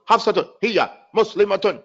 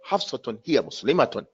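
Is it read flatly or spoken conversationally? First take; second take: flat; conversational. First: It is read flatly, word by word. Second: It is spoken naturally, as if to someone.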